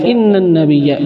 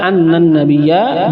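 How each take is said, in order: First: The first word begins with an 'i' vowel. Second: The first word begins with an 'a' vowel. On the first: The clause starts new quoted speech. "bisa dibaca dengan kasrah inna" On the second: The clause is joined to the preceding sentence. "bisa dibaca anna dengan fathah"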